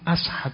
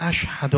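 First: The word is said with an 's' sound. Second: The word is said with an 'sh' sound. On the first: The speaker calls it wrong. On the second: The speaker calls it right.

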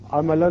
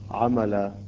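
First: The word ends with an n sound. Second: The word ends with a long a vowel.

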